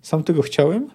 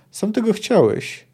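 First: Understated question, rising at the end; dull echoed question. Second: Higher, slow, falling delivery; firm statement. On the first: Kahir repeats Bonhart's words back, dull rising question. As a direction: echo "Sam tego chciałem" with a rise on "chciałem". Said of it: "powtórzył głucho Kahir". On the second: Bonhart warns Kahir before the fight, slow falling statement. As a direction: draw out "Sam tego chciałeś" slowly, ending on a fall. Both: A narrator's reading.

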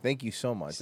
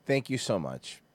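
First: Quiet, drier repeat of thank you so much; sarcastic thanks. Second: Dry, deadpan thank-you; sarcastic thanks. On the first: Repeating sarcastic thanks after the clip. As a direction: say it flat and ironic once more. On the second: Sarcastic thanks to the soundboard clip. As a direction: thank them with mock gratitude. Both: Acted. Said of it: "That was so helpful".

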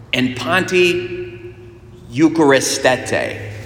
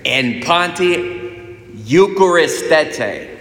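First: "eucharistete" said slowly, syllable by syllable; slow "panti", a pause, then a drawn-out "eucharistete"; deliberate Greek. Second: "eucharistete" stretched slowly, with a high push on the middle; higher, very slow "panti eucharistete", sounded out for listeners; emphatic Greek repeat. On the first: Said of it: "if I say it in Greek". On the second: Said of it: "let me say that again". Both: Shown as a demonstration.

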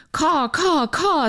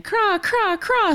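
First: High cawing crow imitation. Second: Much higher, rolling raven call; raven craw. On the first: Host voicing the crow in her poem, high caw. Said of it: "says the crow". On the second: Retold or imitated. Host voicing the raven in her poem, higher craw. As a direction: squawk it like a raven. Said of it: "says the raven".

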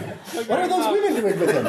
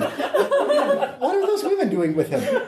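First: Said in the usual way. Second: Higher, slow, shocked question; scandalized repeat. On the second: Acted. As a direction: clutch your pearls and ask again. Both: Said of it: "repeated with rising emphasis".

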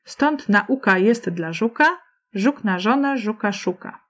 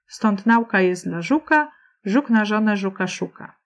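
First: Measured couplet with nauka as na-U-ka; naUka, keeping the verse rhythm intact; stress on U of nauka. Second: Nauka in two syllables, NAU-ka, like aula; NAUka, upsetting the verse rhythm; nauka stressed on NAU. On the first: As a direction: recite rhythmically, putting the beat on u in nauka. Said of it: "Posłuchaj jeszcze raz". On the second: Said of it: "To brzmi jednak inaczej". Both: Shown as a demonstration.

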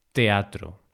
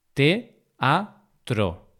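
First: Said in the usual way. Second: "teatro" split as te, a, tro; syllable by syllable. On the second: Shown as a demonstration. Teacher repeating the split for learners, syllable by syllable. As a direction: pause between each syllable of "teatro". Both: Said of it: "esa separación de sílabas".

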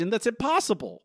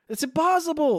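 First: Incredulous. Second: "impossible" yelled high and loud; real disbelief, at full volume; exasperated shout. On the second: To co-host about Mabel looking like Marge, shouting. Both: Real, not acted. Ranting about the episode's logic.

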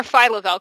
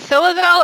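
First: "Phyla-Vell" with a long i, like "file-a"; pronounced file-a-vell. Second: "Phyla-Vell" with a short i, like "fill-a"; pronounced fill-a-vell. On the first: Offering her own version, "Phyla-Vell" said file-a-vell. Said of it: "'Cause I've always said Phyla-Vell". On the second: Asking co-hosts about a name, "Phyla-Vell" said fill-a-vell. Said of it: "always said Phyla because". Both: Shown as a demonstration.

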